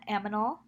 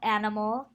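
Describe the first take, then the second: First: The m comes before the n. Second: The n comes before the m.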